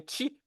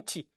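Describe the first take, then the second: First: The word has a sh-sound with no vowel. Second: The word has a t-sound with no vowel. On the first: This is how the word was said in the Old Kingdom. "mais Nchi" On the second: This is the later form of the word. "puis Nti"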